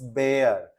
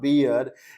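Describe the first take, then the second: First: The vowel sounds like the one in 'bare'. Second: The vowel sounds like the one in 'beer'. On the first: The speaker calls it right. "Its बेयर" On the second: The speaker calls it wrong. "Correct your pronunciation, it's not बियर"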